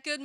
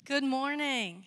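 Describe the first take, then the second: First: Big, high, stretched-out holler of welcome; rousing greeting. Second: Loud, cheerful call to the congregation; projected morning greeting. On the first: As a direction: belt it out to rouse a sleepy room. Let's do it again. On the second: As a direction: greet a full room out loud. First greeting to congregation, then repeated. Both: Real, not acted.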